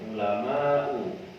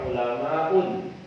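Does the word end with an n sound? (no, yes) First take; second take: no; yes. First: The word ends on a vowel without n. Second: The word ends with an added n sound. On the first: The speaker calls it right. "dia tidak boleh ditanwin" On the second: The speaker calls it wrong. "jangan dibaca ulama'un"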